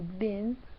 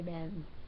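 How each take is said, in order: First: The vowel sounds like the one in 'bin'. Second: The vowel sounds like the one in 'Ben'. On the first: "A lot of people say with the I" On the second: "I say Ben"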